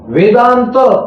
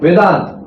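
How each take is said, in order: First: The final vowel is pronounced fully. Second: The final vowel is dropped, ending on a consonant.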